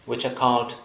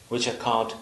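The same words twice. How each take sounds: The two takes are said the same way.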